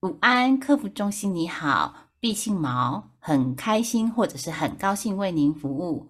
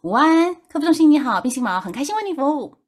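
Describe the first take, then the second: First: It is said at a normal speed. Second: It is said rushed and very fast.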